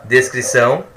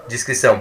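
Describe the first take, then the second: First: Descrição said clearly as "des-cri-ção", first syllable "des" with a closed e; careful "des" in descrição, the describing word. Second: Descrição said as "dji-scri-ção", first syllable an i with a dj sound; "dji" in descrição, the word for discretion; discrição with i. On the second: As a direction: sound out descrição starting "dji", meaning prudence. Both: Shown as a demonstration. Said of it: "Ó, mas a descrição".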